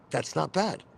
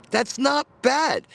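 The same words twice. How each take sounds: First: Said in the usual way. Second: Slow, higher, louder "That's not bad."; drawn-out, impressed "That's not bad."; emphatic. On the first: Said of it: "repeats phrase". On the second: Real, not acted. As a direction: lean into "That's not bad." with real approval. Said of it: "repeats phrase emphatically".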